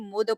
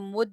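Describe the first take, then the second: First: The final d is released with an echoing bounce. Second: The final d stops plainly without a bounce. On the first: The speaker calls it right. "फिर यहाँ पर कलकला करेंगे" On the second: The speaker calls it wrong. "इसको मुद नहीं"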